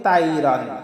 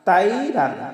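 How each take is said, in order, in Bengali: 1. প্রথম স্বরধ্বনিটি প্রসারিত ঠোঁটে উচ্চারিত হয়। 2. প্রথম স্বরধ্বনিটি প্রসারিত ঠোঁটে উচ্চারিত হয়।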